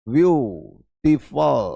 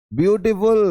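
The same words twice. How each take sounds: First: Slow drawn-out word. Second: Said in the usual way. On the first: Shown as a demonstration. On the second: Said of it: "ए लगा देंगे।".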